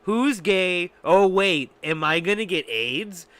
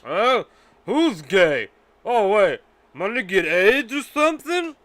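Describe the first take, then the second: First: Louder mock drunk blurt; Mel Gibson quote. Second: Put-on drunk Mel Gibson. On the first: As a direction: toss off the quote a bit quicker. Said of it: "said this". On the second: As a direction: ham up a drunk bigot blurting it out. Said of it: "Mel Gibson said something like this".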